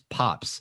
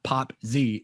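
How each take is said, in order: First: The Z blends in as a final buzzing sound. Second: The Z is said as a separate letter 'zee'. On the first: The speaker calls it right. "It's Pops" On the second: The speaker calls it wrong. "it's not Pop Z"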